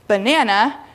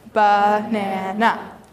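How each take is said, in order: First: The word is said smoothly as one unit. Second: The syllables are said separately with pauses.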